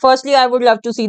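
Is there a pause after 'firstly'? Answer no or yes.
no. There is no pause after the first word. The speaker calls it wrong. "हम ऐसे नहीं इसको read करना चाहते"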